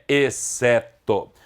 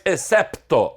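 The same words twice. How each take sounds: First: Exceto slowly, the P dropped; no P sound. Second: Excepto with an audible P before TO; pronounced P. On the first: Teacher giving the current form, exceto without P. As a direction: say exceto with no P before TO. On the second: Teacher rejecting the old form, excepto with P sounded. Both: Shown as a demonstration. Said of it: "Caiu esse P".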